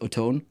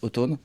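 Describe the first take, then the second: First: It is said with an American pronunciation. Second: It is said with a French pronunciation. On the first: "aux U S, les gens disent automne" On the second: "en France, les gens disent automne"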